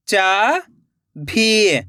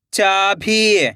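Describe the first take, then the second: First: चाभी split into चा, long pause, भी; rising चा, then falling भी; syllable by syllable. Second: चाभी joined as one word with long ई; blended word. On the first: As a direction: sound out चाभी very slowly in two parts. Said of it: "एक एक अक्षर का उच्चारण करना है". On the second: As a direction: read चाभी whole, falling at the end. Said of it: "खींच के पढ़ना है". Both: Shown as a demonstration.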